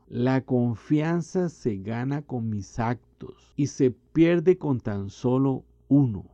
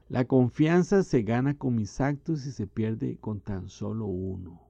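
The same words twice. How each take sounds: First: It is said more slowly. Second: It is said at a normal pace.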